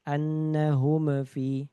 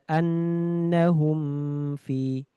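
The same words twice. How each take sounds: First: The m bounces with a small echo. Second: The m is pressed hard and held long. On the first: "memantul tadi nggak boleh juga" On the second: "terlalu ditekan lama-lama"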